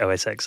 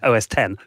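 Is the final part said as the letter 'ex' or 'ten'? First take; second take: ex; ten. First: The last part is said as 'ex'. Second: The last part is said as 'ten'. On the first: The speaker calls it wrong. "you don't pronounce it O S X" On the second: The speaker calls it right. "Roman numeral after"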